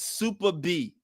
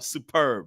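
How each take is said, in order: First: The end sounds like the letter name B. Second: The end sounds like 'urb', in one word. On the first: The speaker calls it wrong. "it was super B? Like, what does that mean?" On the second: The speaker calls it right. "the way you pronounce that is superb"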